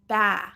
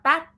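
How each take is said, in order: First: The final T is dropped, the vowel trails off. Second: The final T is fully released with air. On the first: "underpronouncing, that would be like this" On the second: "We don't want bat"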